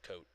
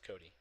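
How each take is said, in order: First: The name is said as one syllable. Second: The name is said as two syllables. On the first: The speaker calls it wrong. "it's just Coat" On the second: The speaker calls it right. "it's like no, it's Cody"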